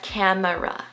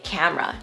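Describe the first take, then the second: First: The word is said with three syllables. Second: The word is said with two syllables. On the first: The speaker calls it wrong. "Most people say this next word as camera, three syllables" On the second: The speaker calls it right. "us native speakers say camera, just two syllables"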